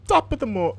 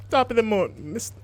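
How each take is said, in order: First: High, bad Irish accent attempt. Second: High, bad Irish accent attempt; second go at an Irish accent. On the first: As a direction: try an Irish accent and fail. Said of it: "I can't do an Irish accent". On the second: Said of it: "my Irish accent's gonna come out, like, Jamaican".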